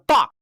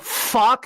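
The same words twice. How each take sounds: First: The word is said quickly and sharply. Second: The word is drawn out slowly. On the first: The speaker calls it right. "you need that speed to it. It makes it sillier" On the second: The speaker calls it wrong. "they would go fuck instead of"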